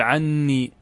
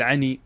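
First: "عني" with a held double n: 'an-nii; doubled nun. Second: "عني" with one short n: 'a-nii; single light nun. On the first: Teacher merging nun into nun, "عني" with a long doubled n. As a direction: lengthen the geminated n in "عني". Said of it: "تدغم النون في النون وتشدد". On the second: Teacher dropping the extra nun, "عني" with a single n. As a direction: pass quickly through the n of "عني". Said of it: "إذا حذفت النون تكتفي بالياء فقط". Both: Shown as a demonstration.

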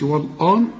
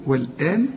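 First: والآن with heavy backed "wal-aan"; wrong heavy vowels. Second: والآن as thin fronted "wel-een"; light vowels. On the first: Teacher shows what not to say, heavy vowels. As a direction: thicken the hamza of والآن as a mistake. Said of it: "ما تقولش والآن". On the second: Teacher shows the student the familiar word, light vowels. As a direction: keep the hamza of والآن light. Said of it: "زي ما تقول والآن". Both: Shown as a demonstration.

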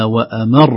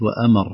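First: وأمر with a push on "mar" and a held r; stressed doubled ra. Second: وأمر falling away with a short single r; single ra, no push. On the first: Teacher showing the needed stress, doubled r in وأمر. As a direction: punch the end of وأمر, lengthening the r. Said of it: "حتى نظهر شدة الراء". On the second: Teacher showing the wrong reading, short r in وأمر. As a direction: let the end of وأمر drop, unstressed. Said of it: "وليست". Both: Shown as a demonstration.

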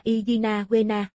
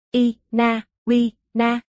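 First: Said in the usual way. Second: "Ina Wina" very slowly, a clear pause after each piece; "Ina Wina" broken up and drawn right out; syllable by syllable. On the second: Acted. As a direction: spell out "Ina Wina" in separate, deliberate syllables for a puzzled listener. Repeats odd name after listener's question.

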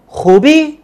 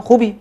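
First: خوبی said with a rising tune, asking; question tune. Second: خوبی said with a falling tune, as a flat statement. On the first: Teacher turns خوبی into a question with a rising tune. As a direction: lift the end of خوبی into a question. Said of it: "وہ کویسچننگ میں تبدیل ہو گیا". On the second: Teacher shows خوبی as a statement, falling and calm. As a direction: say خوبی falling, telling someone it's all good. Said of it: "اگر میں accent میں کہہ رہا ہوں خوبی". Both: Shown as a demonstration.

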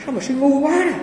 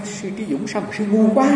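First: High, mocking replay of the master's words; mock master's rebuke. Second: Thiền sư chê. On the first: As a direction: toss the insult back up high, teasingly. (nhại lại lời thầy chê, giọng cao, trêu chọc) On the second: Retold or imitated. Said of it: "Ông nói".

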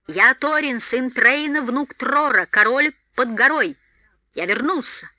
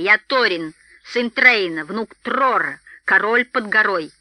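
First: High, loud royal announcement; exclaimed proclamation. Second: Proud dwarf king declaring his titles. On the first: Dwarf king announcing himself to the feasting hall, ringing exclamation. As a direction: proclaim your titles to the whole hall. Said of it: "воскликнул Торин". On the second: Dwarf presenting himself to startled guards, proud and emphatic. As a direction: announce your lineage proudly, weighting each title. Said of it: "горделиво ответил гном". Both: A narrator's reading.

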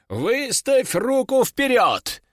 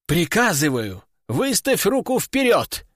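First: Slow, high order stressing руку; slow command. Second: Exclaimed order. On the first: Master ordering the demon, slow and high. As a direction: give the order slowly, leaning on руку. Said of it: "приказал он". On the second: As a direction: bark the command, pitch jumping up. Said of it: "воскликнул ученик". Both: Acted.

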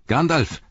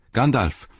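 First: Second call pitched higher and more desperate. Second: A first urgent call, raised. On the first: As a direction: call again, higher, pleading. (höherer, verzweifelter Ruf) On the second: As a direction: shout his name to stop the rider. (laut rufend) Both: Acted. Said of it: "rief Pippin".

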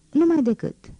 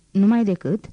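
First: "Numai decât." starting high and falling firmly; insistent answer. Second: Questioning "Numai decât?" with a lift inside "decât". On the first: Marius answers her question insistently. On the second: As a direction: ask "Numai decât?" as if checking. Girl asks, Marius insists. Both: A narrator's reading.

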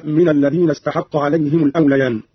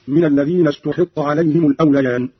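First: Said in the usual way. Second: استحق voiced as "ustuhiqqa"; passive reading. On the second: Shown as a demonstration. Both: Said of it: "مبنيا للمجهول".

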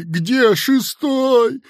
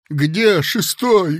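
First: Much higher, slow, louder; desperate cry. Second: Slow, louder lost call; weak cry. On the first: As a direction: cry out again, near panic. (отчаянный крик) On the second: (слабо крикнул) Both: A narrator's reading. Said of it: "слабо крикнул он кому-то".

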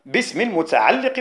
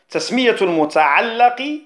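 First: المتعلق with an "i" after the doubled lam; kasra on المتعلق. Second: المتعلق with an "a" after the doubled lam; fatha on المتعلق. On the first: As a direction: say المتعلق as al-muta'alliq. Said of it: "بالكسر". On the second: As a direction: say المتعلق as al-muta'allaq. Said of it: "بالفتح". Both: Shown as a demonstration.

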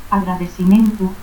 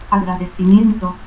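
First: Agradecimiento as "agradesimentu"; dropped I. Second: Said in the usual way. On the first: Shown as a demonstration. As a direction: end Agradecimiento in "-mentu", with S for C. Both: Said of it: "ausencia de la I".

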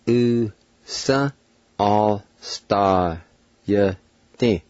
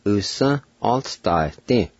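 First: "Usa. All star, yeah, thing" as long separate sounds, ending on a short "tee"; "Usa. All star, yeah, thing" stretched with pauses; syllable-by-syllable demo. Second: "Usan all star thing" joined up, ending on a short "tee"; "Usan all star thing" said carefully without long gaps; sounds put together. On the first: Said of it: "I'll pronounce these words one more time". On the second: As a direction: blend "Usan all star thing" slowly into one phrase. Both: Shown as a demonstration.

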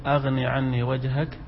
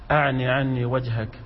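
First: أغني read with ghayn, not ayn; corrected to ghayn. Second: أعن said with ayn, not ghayn; misread with ayn. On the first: Student rereading after teacher's correction, ghayn in أغني. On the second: Student reading to the teacher from the book, misreading أغني with ayn. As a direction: read أعن with a throaty ayn. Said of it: "عندك أعني؟". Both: Real, not acted.

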